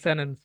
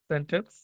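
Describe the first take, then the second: First: The middle t sound is dropped. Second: The middle t sound is clearly pronounced.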